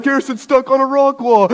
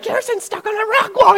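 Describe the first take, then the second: First: High-pitched imitation of brother; brother calling out. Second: Extremely high mock squeal; panicked sisters. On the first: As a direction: announce it in mock dismay, pitched up. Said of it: "my brother's like". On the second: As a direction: imitate little sisters shrieking the news. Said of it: "my sisters are like".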